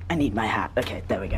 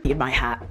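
First: Hushed rushed whisper. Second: Said in the usual way. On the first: Real, not acted. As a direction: whisper it so she won't hear. Hushed before call.

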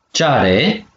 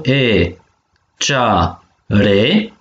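First: Said in the usual way. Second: Cea and re as separate held beats; syllable by syllable. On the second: Shown as a demonstration. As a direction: break it into cea - re with pauses. (pe silabe: cea, re) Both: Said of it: "dui silabe".

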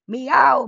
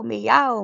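First: Much higher, louder cat meow. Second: Higher, louder meow dropping at the end; falling meow. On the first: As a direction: yowl like a cat playing monster. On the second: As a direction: let the second meow fall away. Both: Acted. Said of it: "Mabel cried".

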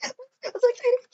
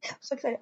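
First: High laughing squeal; giddy laughing squeal; excited squeal. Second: Said in the usual way. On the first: Real, not acted. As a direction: burst out giggling with joy. Laughing squeal then flat repeat.

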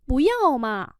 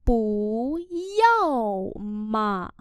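First: Said in the usual way. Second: Very slow drawn-out teaching pronunciation; slow syllable-by-syllable model. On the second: Shown as a demonstration. Teacher models Chinese phrase for learners, very slowly. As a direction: stretch each syllable, pause between them.

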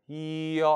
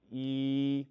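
First: 이 slipping into 어; wrong 이어 glide. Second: Long level 이 without any 어 glide; pure 이. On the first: Teacher showing what to avoid, 이 sliding to 어. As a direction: let 이 open out into 어 at the end. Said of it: "하지 말라고요". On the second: Teacher correcting learners, plain sustained 이 vowel. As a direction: hold 이 steady to the end. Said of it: "그냥 이". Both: Shown as a demonstration.

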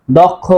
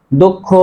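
First: দক্ষ said as short dɔkh with open অ; দক্ষ with a clipped open dɔ, no doubled kh; wrong pronunciation. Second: দক্ষ said as dokkho, o sound and doubled kh; দক্ষ with a rounded o and a long held kh; correct pronunciation. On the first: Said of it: "তাহলে উচ্চারণ হবে না". (দক্ষ ভুলভাবে খোলা অ দিয়ে দখ উচ্চারণ) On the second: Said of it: "উচ্চারণ হবে". (দক্ষ সঠিকভাবে ও-কার ও দ্বিত্ব খ দিয়ে দোক্খো) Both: Shown as a demonstration.

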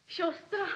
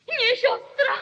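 First: Said in the usual way. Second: NIE thrown out high and loud; shouted denial over the bloodstain; horrified cry. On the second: Acted. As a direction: recoil from the word sister. Murderer sees blood.

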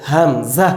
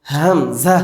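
First: হামজা started with a catch in the throat; first demonstration of হামজা; throat letter. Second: হামজা with a throat catch and a changed colour; second demonstration of হামজা; throat letter repeated. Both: Shown as a demonstration. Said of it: "হামজা হলকে শুরু হইতে".

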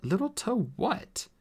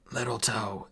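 First: High, slow query; lighter, higher voice, drawn out in confusion; puzzled question. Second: Strained dwarf instruction; in pain. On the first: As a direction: ask it in bafflement. Artemis puzzled by the instruction. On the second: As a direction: force it out through the pain. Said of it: "eyes closed with pain". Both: Acted.

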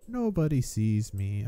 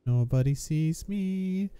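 First: Said in the usual way. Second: Higher, slow sneaky sing-song. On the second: Shown as a demonstration. Gamer sneaking past enemies, teasing sing-song. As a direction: tiptoe the words like a cartoon sneak.

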